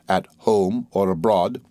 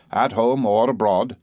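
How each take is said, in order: First: Slow, puzzled "at home or abroad"; wondering echo. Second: Slow, deliberate "at home or abroad"; emphasized words. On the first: Doctor repeating Wickfield's words, slow wondering echo of "at home or abroad". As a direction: draw out "home" and "abroad", pondering. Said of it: "apparently wondering why he emphasized those words". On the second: Mister Wickfield hinting to the doctor, deliberate stress on "home or abroad". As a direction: weigh both "home" and "abroad" pointedly. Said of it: "why he emphasized those words so much". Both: A narrator's reading.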